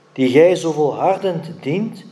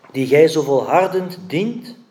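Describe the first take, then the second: No difference in how they are said.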